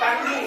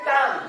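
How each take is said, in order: First: It ends with an added vowel sound after ng. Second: It ends on the ng sound, no vowel. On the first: The speaker calls it wrong. "টাঙ্গি উচ্চারণ নয়" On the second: The speaker calls it right. "উচ্চারণ হচ্ছে টাং"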